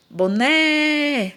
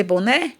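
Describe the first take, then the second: First: BONÉ called out with a long, high NÉ; drawn-out stress. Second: Said in the usual way. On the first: Shown as a demonstration. Teacher shows class the stressed syllable, NÉ drawn out in BONÉ. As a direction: stretch the final NÉ of BONÉ as if calling. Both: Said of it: "a sílaba tônica é o né".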